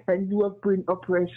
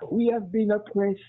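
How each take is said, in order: First: "you" set apart with extra weight against "we"; stress on you. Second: "we" set apart with extra weight against "you"; stress on we. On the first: Mocking the liberal friend's plea, stress on "you". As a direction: lean on "you", mock-sympathetic. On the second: Mocking the liberal friend's plea, stress on "we". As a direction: lean on "we", as if pleading to the caller's listeners. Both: Retold or imitated. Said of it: "pretend that they are our friends".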